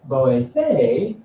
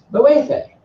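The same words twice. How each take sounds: First: Boefe drawn out, swelling on the last syllable; stress ending boefe. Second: Boefe stressed on its middle syllable; stress inside boefe. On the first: Teacher shows the "is helping" form, end-stressed boefe. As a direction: stretch the final syllable of boefe. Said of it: "it means he". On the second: Teacher shows the drowning person's plea, middle-stressed boefe. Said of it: "You wanna say". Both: Shown as a demonstration.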